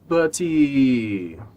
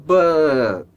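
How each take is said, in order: First: An extra ee vowel follows the final t. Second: The word ends cleanly on the t sound. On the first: The speaker calls it wrong. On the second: The speaker calls it right.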